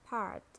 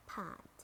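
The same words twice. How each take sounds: First: "part" with a sounded American R; American "part", curl the R before t; American accent. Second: "part" with a British silent R; British "part", said paht; British accent. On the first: Teacher models part for learners, American accent. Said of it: "R in American English". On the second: Teacher models part for learners, British accent. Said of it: "in British English". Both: Shown as a demonstration.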